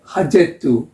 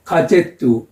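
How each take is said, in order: First: 하제투 starting with a breathed h, ending in "tu"; Ukrainian pronunciation. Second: 가제투 starting with a hard g/k stop, ending in "tu"; Russian pronunciation. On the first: Teacher compares the word for newspaper, Ukrainian pronunciation of 하제투. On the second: Teacher compares the word for newspaper, Russian pronunciation of 가제투. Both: Shown as a demonstration. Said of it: "the pronunciation is similar".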